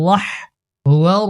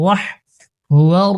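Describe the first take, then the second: Both takes have the same delivery.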